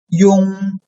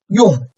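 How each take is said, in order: First: The pitch stays high and level. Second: The pitch falls sharply from high to low.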